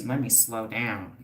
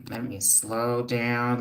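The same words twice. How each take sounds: First: Said in the usual way. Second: Slow, deliberate words; slowing it right down to calm herself; each word drawn out slowly. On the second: Real, not acted.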